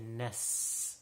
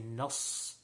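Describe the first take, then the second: First: The s sound is thin and light. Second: The s sound is thick and heavy. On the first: The speaker calls it right. "like a scene. It should not be thick at all" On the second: The speaker calls it wrong. "most common mistake is people say nas, ... they will say like a sod"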